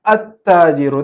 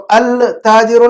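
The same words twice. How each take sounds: First: التاجر said "at-taajiru", ت doubled; silent lam. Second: التاجر said "al-taajiru" with a clear L; lam wrongly sounded. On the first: Teacher modelling correct reading, التاجر as "at-taajiru". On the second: Teacher showing what not to read, التاجر as "al-taajiru". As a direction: voice the L before ت in التاجر, as the mistake. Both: Shown as a demonstration. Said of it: "دیکھو التاجر نہیں پڑھنا چاہیے".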